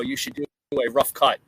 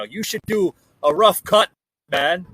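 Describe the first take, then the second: First: Said in the usual way. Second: Put-on a deliberately terrible Irish accent, a bit louder; hammed-up Irish brogue, knowingly awful; bad Irish accent. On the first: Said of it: "but they actually said that". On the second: Quoting an Irish viewer's email in a bad Irish accent. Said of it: "worst impersonation of an Irish accent ever".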